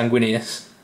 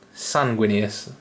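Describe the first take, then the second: First: The name begins with a Z sound. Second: The name begins with an S sound. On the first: The speaker calls it wrong. "I don't know why I say Zan" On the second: The speaker calls it right. "I presume"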